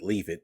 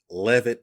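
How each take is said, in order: First: The first syllable sounds like 'leave'. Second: The first syllable sounds like 'lev'. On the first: It jokes that he left the company. "I pronounce it Leavitt because he left the company" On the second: This is the name's usual form. "the lead designer's name is Troy Levitt"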